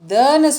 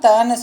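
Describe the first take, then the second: First: The consonant is pressed hard with breath. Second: The consonant is plain without extra breath. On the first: The speaker calls it right. "தன்னு சொல்லணும்" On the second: The speaker calls it wrong. "தன்னு சொல்லக்கூடாது"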